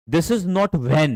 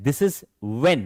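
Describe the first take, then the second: First: When said with the h sounded, slowly, as a wrong example; slow, over-careful when with a breathy h; wrong pronunciation. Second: When said as wen with no h sound; right pronunciation. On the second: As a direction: when spoken plainly as wen, h dropped. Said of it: "When, ऐसे बोला जाएगा". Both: Shown as a demonstration.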